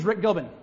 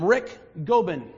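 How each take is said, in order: First: The K and G blur together without a break. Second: A clear stop separates the K and G. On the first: "The K and the G of Rick Gobin get muddled up together in there" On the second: "I had to stop with a K and a G"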